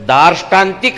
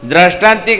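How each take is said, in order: First: The r comes after the first vowel. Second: The r comes right after the first d. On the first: The speaker calls it right. "दार्ष्टांतिक हाच शब्द शुद्ध बरोबर आहे" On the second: The speaker calls it wrong. "द्राष्टांतिक हा शब्द शुद्ध चुकीचा आहे"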